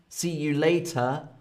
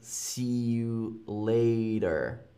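First: The t in later is a hard t. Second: The t in later sounds like a d. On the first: "later with a hard T" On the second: "with more of a D"

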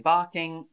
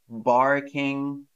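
First: The r after the vowel is silent. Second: The r after the vowel is pronounced. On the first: The speaker calls it right. "we say barking" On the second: The speaker calls it wrong. "we don't say barking in British English"

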